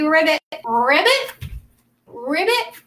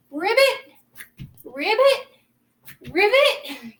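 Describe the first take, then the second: First: Croaky ribbit calls; frog voice. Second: High rising ribbit calls; frog voice. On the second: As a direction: croak it out like a frog. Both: Shown as a demonstration. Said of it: "Do the frog voice too".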